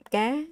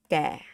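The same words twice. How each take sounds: First: "Ga" pitched high and lifting; raised Vietnamese tone on "Ga". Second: "ga" falling low; lowered Vietnamese tone on "ga". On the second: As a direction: let "ga" drop down. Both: Shown as a demonstration. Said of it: "From high to low".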